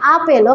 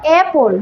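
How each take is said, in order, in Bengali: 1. প্রথম স্বরটি খোলা ও পেছনের, 'father'-এর মতো। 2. প্রথম স্বরটি খোলা ও সামনের, 'cat'-এর মতো। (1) "নট আপেল" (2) "এই ফর অ্যাপল"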